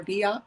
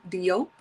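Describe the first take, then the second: First: Diop said as DEE-ah; alternative pronunciation. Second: Diop said as DEE-ope; first pronunciation option. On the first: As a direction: say Diop with an open AH and silent P. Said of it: "Let's say Diop". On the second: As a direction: end Diop on a long O and P. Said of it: "I don't know how to pronounce it". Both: Shown as a demonstration.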